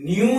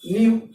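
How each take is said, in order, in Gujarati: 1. nu શબ્દ સાદો બોલાય છે, નાકનો અવાજ નથી. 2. nu શબ્દ નાકના અવાજ સાથે બોલાય છે. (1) "ન્યુ નહીં" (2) "નાકમાં બોલવાનું"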